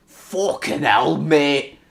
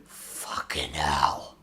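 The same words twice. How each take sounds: First: Put-on Scottish accent. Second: Low, slow, hushed swearing; low mutter. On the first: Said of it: "talking in a Scottish accent". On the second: Real, not acted. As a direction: mutter it slowly under your breath. First take before the accented repeats.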